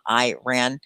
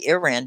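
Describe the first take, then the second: First: The first vowel sounds like 'eye'. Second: The first vowel sounds like 'ee'. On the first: "I have always said that hard I, like I am" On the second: "you usually say Iran"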